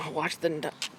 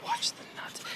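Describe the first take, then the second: First: Said in the usual way. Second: Urgent unvoiced warning; whisper. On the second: Real, not acted. Dad warning the approaching kid to mind his crotch, whispered. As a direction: hiss the warning out breathily.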